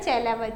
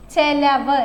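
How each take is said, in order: First: Said in the usual way. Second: ചെലവ് said with a clear e vowel, not i. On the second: Shown as a demonstration. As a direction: say ചെലവ് as che-lavu. (ചെ എന്ന് ഉച്ചരിക്കുക) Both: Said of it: "ചിലവ് എന്നല്ല പറയേണ്ടത്".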